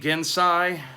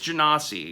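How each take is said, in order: First: The word ends with a 'sigh' sound. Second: The word does not end with 'sigh'. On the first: The speaker calls it wrong. "quit saying Gensai" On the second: The speaker calls it right. "It's Genasi"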